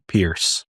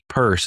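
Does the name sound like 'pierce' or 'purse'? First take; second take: pierce; purse. First: The name rhymes with the word fierce. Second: The name rhymes with the word purse. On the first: The speaker calls it wrong. "it's not Pierce" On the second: The speaker calls it right. "it's Peirce, pronounced like the ... bag men don't carry"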